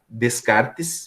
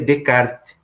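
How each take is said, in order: First: The name is read with Portuguese-style sounds. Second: The name is said with French-style sounds.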